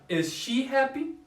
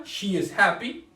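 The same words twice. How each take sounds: First: Rising question, noticeably higher; question tune. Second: Said in the usual way. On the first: Shown as a demonstration. Teacher modeling the question form for students. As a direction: lift the end into a clear question. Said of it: "y la forma interrogativa". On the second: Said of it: "La afirmativa".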